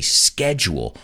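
The word begins with a 'sk' sound. This is the American pronunciation. "in the United States, we say schedule"

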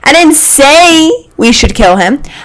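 The stress falls on the word 'say'.

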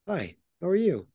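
It is said in a calm, controlled way.

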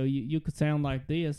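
It is said in a Southern US accent. "if you're from the South"

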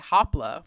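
The name is said with an American accent.

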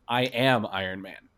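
The word am carries the stress.

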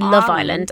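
The stress is on the word love. This is how British speakers say it. "we'd say Love Island and put the emphasis on love"

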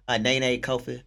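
The name is said in an American accent. The speaker hides his heritage. The speaker calls it wrong. "why'd you give me the American accent and dialect?"

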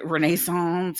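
It is said with a French-style pronunciation. The speaker calls it wrong. "that French pronunciation"

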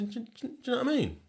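It is said in a Sheffield accent. "I say"

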